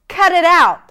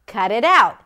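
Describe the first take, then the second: First: The phrase is said in an angry tone. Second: The phrase is said in a calm tone. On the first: "Now say it with an angry tone" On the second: "So basically what you're saying is cut it out"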